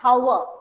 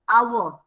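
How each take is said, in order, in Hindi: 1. शब्द की शुरुआत में साफ़ 'h' की आवाज़ है। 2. शब्द की शुरुआत में स्वर है, 'h' की आवाज़ नहीं है। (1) "it should be said hour, but we never say it hour" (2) "We say it hour, hour. H is not pronounced"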